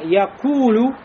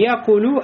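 First: The middle vowel is long and drawn out. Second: The middle vowel is short, not drawn out. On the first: The speaker calls it right. "а якулю" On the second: The speaker calls it wrong. "Не якулю"

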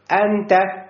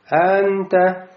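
First: It starts with a sharp catch in the throat. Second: It starts smoothly, with no catch in the throat. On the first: The speaker calls it right. "необходимо сказать" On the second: The speaker calls it wrong. "не просто анта, то есть не произнести как алиф"

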